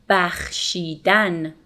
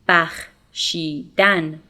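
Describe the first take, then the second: Both takes have the same delivery.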